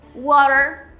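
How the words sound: It is said with an American accent. "No inglês americano vai ser water"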